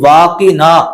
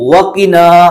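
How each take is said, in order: First: The first vowel is drawn out long. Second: The first vowel is kept short. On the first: The speaker calls it wrong. "अलिफ लगा दिया, तो ये खींच दिया" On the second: The speaker calls it right. "वाकिना नहीं है बल्कि क्या है"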